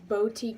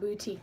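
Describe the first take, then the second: First: The first syllable sounds like 'bow'. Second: The first syllable sounds like 'boo'. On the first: The speaker calls it right. "it's boutique, ... Like B O W" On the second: The speaker calls it wrong. "not boutique"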